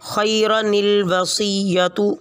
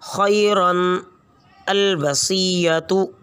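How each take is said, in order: First: The words are joined by an added 'ni' sound. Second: The words are said apart, with no added 'ni'. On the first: "अब इसको यूँ पढ़ेंगे" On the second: "जैसे"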